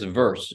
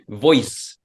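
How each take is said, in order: First: The vowel sounds like 'er', as in 'verse'. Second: The vowel sounds like 'oi', as in 'voice'. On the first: "but it's verse" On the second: "But they say voice"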